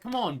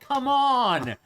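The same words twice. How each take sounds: First: It is said with mild frustration. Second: It is said aggressively, hounding the listener.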